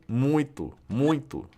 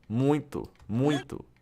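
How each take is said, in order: Both takes have the same delivery.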